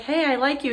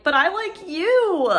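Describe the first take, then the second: First: Said in the usual way. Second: "But I like you" with "you" leaned on, much higher and slow; stress on you. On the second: Retold or imitated. Vlogger answering a YouTuber's compliment, stressing "you". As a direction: stretch out and lift the word "you". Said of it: "and you're like".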